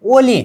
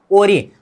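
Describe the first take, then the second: First: ओली with an l instead of the r; wrong l sound. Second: ओरी with a clear tapped r, not an l; correct ori. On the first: Teacher showing students the mistake ओली. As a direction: demonstrate the wrong ओली using l. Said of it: "फिर ओली नहीं करना". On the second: Teacher modelling ओरी correctly for students. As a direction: say ओरी the right way with r. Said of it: "अब ऐसा नहीं करना". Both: Shown as a demonstration.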